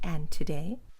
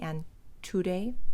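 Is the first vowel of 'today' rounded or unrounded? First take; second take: unrounded; rounded. First: The first vowel of today has unrounded lips. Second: The first vowel of today has rounded lips. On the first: The speaker calls it right. "The lips are not going out" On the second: The speaker calls it wrong. "She's not saying and today, mm-mm"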